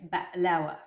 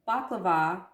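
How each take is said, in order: First: It is said quickly, the Mediterranean way. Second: It is said the common international way. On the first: "throughout the Mediterranean, including Greece... they speak very quickly" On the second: "it's pronounced baklava in the rest of the world"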